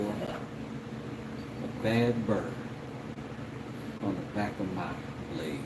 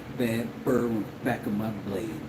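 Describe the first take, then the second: First: The phrase is said at a slower pace. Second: The phrase is said at a faster pace. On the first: The speaker calls it wrong. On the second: The speaker calls it right.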